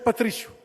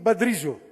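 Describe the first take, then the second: First: The word begins with a P sound. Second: The word begins with a B sound. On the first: This is the standard Portuguese form. "em vez de dizer Patrício" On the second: "acabavam utilizando o consoante B no lugar do P"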